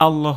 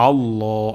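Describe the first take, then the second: First: আল্লাহ with a plain hamza a sound, not the throat ain; wrong pronunciation. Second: আল্লাহ begun with ain from mid-throat. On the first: Teacher showing students the wrong আল্লাহ with a plain a. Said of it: "এখানে আমাদের ... হয়ে যেতে পারে". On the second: Teacher showing the correct ain in আল্লাহ. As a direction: push আল্লাহ from the middle of the throat. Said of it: "আইন উচ্চারণ করব গলার মাঝখান থেকে". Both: Shown as a demonstration.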